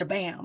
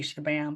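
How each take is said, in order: First: The word is said with lively, punchy energy. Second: The word is said flatly, without energy. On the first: The speaker calls it right. "you gotta say it with like, ... it's shabam" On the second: The speaker calls it wrong. "don't just say shabam"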